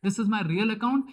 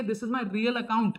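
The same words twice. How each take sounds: First: Said in the usual way. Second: Said slowly, word by word; slow, deliberate teacher emphasis; slow stress. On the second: Shown as a demonstration. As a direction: spell it out slowly for the class.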